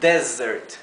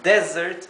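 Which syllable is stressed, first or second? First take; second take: first; first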